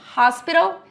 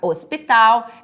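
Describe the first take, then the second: First: The initial H is pronounced as a breathy sound. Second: The initial H is silent. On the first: "no inglês, você tem essa questão do H ter som, ele vai ter o som de R" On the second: "no português, o hospital, ele não tem som, o H"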